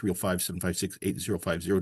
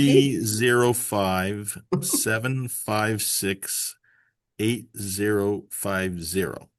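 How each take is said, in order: First: The number is said at normal speed. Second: The number is said slowly.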